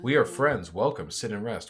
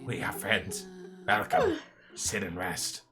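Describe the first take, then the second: First: It is said in the speaker's normal voice. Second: It is said in a put-on character voice.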